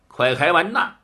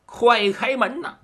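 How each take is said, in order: First: Said in the usual way. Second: 快开门呐 called out higher, urgent. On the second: A narrator's reading. Husband at the door urges his wife, calling higher. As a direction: call through the door to be let in.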